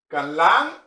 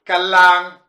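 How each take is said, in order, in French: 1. On entend un son n avant le l. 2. On n'entend aucun son n avant le l.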